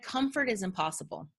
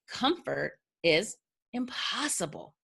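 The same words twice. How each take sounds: First: The last word is said plainly, not stretched. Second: The word impossible is drawn out and emphasized.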